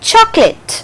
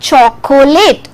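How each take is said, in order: First: The word is said with two syllables. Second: The word is said with three syllables. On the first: The speaker calls it right. "It has two syllables. O is silent" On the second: The speaker calls it wrong. "So it is not chocolate. It is not three syllabic sound"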